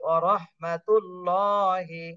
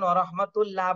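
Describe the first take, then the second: First: The 'llah' sound is said heavy and full. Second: The 'llah' sound is said thin and light. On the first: The speaker calls it right. "এভাবে হবে" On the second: The speaker calls it wrong. "আল্লাহ শব্দ কিন্তু চিকন করে বলা যাবে না, দুই একজন ওয়া রাহমাতুল্লাহ বলতেছেন"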